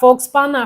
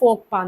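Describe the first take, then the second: First: A 'ks' sound is spoken before 'pa'. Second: No 'ks' sound is spoken before 'pa'. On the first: The speaker calls it wrong. "നമ്മൾ ഇതിനകത്ത് എഴുതിയെങ്കിലും" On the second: The speaker calls it right. "Pronunciation എങ്ങനെയാണ്? ഫോക്പാ എന്നാണ്"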